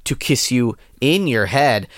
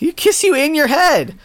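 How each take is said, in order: First: Slow, earnest romantic read; love letter reading. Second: High-pitched, incredulous mock repeat; incredulous quote. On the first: Pretend. Host reading a promise to a soulmate, slow love-letter voice. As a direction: read it slowly as a tender promise. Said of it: "like a love letter". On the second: Host mocking a typo in the love letter, incredulous. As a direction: throw the line back in high disbelief.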